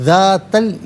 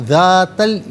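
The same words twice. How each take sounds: The two takes are said the same way.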